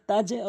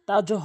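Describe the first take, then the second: First: The final consonant bounces with an e-like vowel. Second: The final consonant bounces with an o-like vowel. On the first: The speaker calls it right. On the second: The speaker calls it wrong. "তাজও হবে না"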